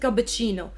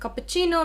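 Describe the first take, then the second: First: The middle consonant is a B sound. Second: The middle consonant is a P sound. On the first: "make it a cappuccino. It's fine" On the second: "If you have a cappuccino"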